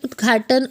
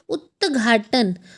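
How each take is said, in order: First: It is said quickly with a d before gh. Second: It is said slowly with a t before gh.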